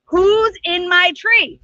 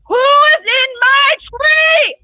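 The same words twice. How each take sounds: First: A slow, drawn-out call up into the tree; lion asking who is up there, slow. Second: A slow, very loud, much higher roar; roaring shout. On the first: Lion calls up the tree, slow and drawn out. Lion asks again, louder next. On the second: Angry lion Simba roars up into the tree. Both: Acted.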